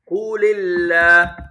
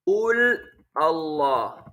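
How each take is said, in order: First: The words run together with a linking vowel. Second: The words are separated by a stop. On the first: "Then give the lam a kasra" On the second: "If you stop"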